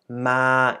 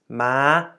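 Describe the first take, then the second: First: The syllable is said on a level middle tone. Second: The syllable is said on a high tone. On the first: "from being a neutral tone" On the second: "to being a high tone"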